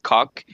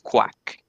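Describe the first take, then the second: First: It sounds like 'cock', without a w sound. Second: It sounds like 'quack', with a w sound. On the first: The speaker calls it wrong. "some people pronounce that different. Actually, they say something like cock" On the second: The speaker calls it right. "it's quack, like a duck"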